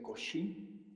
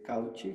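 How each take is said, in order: First: The name is said in its native French way. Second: The name is read letter by letter as spelled. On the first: The speaker calls it right. "se pronuncia Cauchy" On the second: The speaker calls it wrong. "se escribe como lo has pronunciado"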